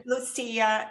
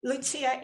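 First: Lucia said loo-SEE-ah with an s sound; Portuguese Lucia with stress on the SEE and a clear s; Portuguese pronunciation. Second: Lucia said loo-CHEE-ah with a ch sound; Italian pronunciation. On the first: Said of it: "Lucia in Portuguese". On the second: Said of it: "Lucia in Italian". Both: Shown as a demonstration.

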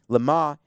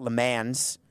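First: "Le Mans" said the French way, luh MAHN, nasal end and silent s; French pronunciation. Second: "Le Mans" said English style, luh MANZ, with the s sounded; "Le Mans" the way people who don't speak French say it; anglicized pronunciation. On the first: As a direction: say "Le Mans" like a French speaker, no final s. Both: Shown as a demonstration. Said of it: "That's the people who don't speak French".

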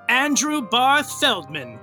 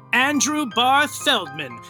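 Both takes have the same delivery.

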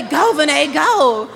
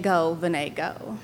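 First: Louder mock cheer, laughing through it; imitating dad cheering. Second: Soft, lower, tender echo of dad; tender memory. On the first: Dad cheering his daughter at the race, loud mock cheer. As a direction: cheer her on like a proud dad. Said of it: "And telling me". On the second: Retold or imitated. Daughter remembering her late father's cheer, soft tender echo. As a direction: say it gently like a cherished voice. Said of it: "the most beautiful voice in the world saying".

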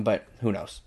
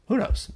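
First: Said in the usual way. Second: Much higher, teasing squeak; high playful repeat. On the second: Pretend.

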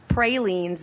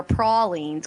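First: Pralines said PRAY-leens, long A; "pralines" as PRAY-leens, slowly; retold "wrong" pralines. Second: Pralines said PRAH-leens, broad A; slow "pralines" as PRAH-leens; retold "right" pralines. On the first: Retelling a viewer's correction, pralines as PRAY-leens. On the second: Retelling a viewer's correction, pralines as PRAH-leens. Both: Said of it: "went through an entire thing about".

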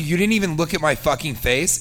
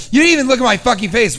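First: Said in the usual way. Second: Higher, louder, fast incredulous repeat; mock outrage. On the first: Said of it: "if somebody says to you". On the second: Comedian mocking the woman's line, higher and louder in disbelief. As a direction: fire it back in disbelief. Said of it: "expect me not to be like".

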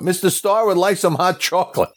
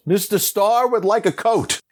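First: High calling voice to the crew. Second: High mock yell calling out; calls out to the crew on his behalf. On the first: Retold or imitated. Director calls to the crew for hot chocolate, high call. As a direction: announce the request to the crew. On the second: Director yells to the crew for a coat, high call. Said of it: "And then he yells".

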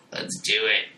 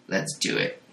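First: Voiced, lightly monstrous father; creepy voice. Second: Breathy menacing whisper. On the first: Monstrous father leering at Jane, lightly voiced creepy tone. Same line repeated voiced. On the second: Acted. Monstrous father whispering to Jane, creepy whisper.

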